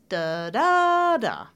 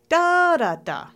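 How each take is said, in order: First: The stress is on the second syllable. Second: The stress is on the first syllable. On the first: "I'm going to stress the second syllable now" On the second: "the top three-syllable words where we're stressing the first syllable"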